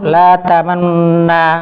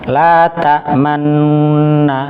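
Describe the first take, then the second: First: The nasal hum is cut short and rushed. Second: The nasal hum is held for a medium length. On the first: The speaker calls it wrong. "jangan terburu-buru ... Malah kurang nanti" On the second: The speaker calls it right. "sebagaimana gunnah yang lainnya dua harokat"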